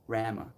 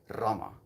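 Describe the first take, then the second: First: The R at the start is plain. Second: The R at the start is rolled. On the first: The speaker calls it wrong. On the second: The speaker calls it right. "Like that rolling R"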